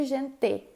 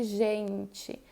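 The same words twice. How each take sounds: First: "gente" ending in a full "te"; E final pronunciado. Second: "gente" ending in "tchi", drawn out slowly; E final como I. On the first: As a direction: say "gente" with hard T and clear E. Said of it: "eu não digo gente". ("gente" com "tê" no final, sem "tchi") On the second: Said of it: "eu digo gente". ("gente" devagar, com final "tchi") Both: Shown as a demonstration.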